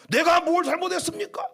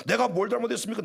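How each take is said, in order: First: Raised, offended complaint, higher pitch; indignant protest. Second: Said in the usual way. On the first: Retold or imitated. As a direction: protest like a wronged pastor. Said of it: "이렇게 한 것이 아니고". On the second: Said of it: "흔들지 않았어요".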